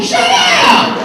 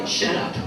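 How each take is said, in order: First: High-pitched comic yell; outburst. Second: Quiet, under-the-breath aside; muttered retort. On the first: Worker on being called in by the supervisor, comic outburst. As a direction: blurt it out sky-high. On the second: Worker to a customer after handing back the card, muttered retort. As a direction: slip it out very softly. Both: Acted.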